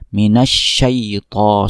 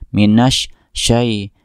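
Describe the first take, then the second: First: The word is said smoothly in one breath. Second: The word is broken by a pause, then resumed. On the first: The speaker calls it right. "ditekan minasyaito sekali nafas" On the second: The speaker calls it wrong. "semacam terpotong kemudian disambungkan"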